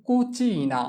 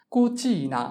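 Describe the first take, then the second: First: Slow model pronunciation. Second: Said in the usual way. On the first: Shown as a demonstration. Teacher models example word slowly.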